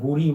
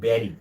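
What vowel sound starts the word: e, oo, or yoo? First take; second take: oo; e. First: The first vowel sounds like 'oo'. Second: The first vowel sounds like 'e'. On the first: The speaker calls it wrong. "যেটা আমরা অনেক সময় বুড়ি বলি" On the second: The speaker calls it right. "but the pronunciation will be berry"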